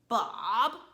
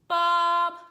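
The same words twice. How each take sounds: First: The pitch dips down then rises slightly. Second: The pitch stays level and flat. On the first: "your voice falls down and comes up a little bit" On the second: "straight line across like this"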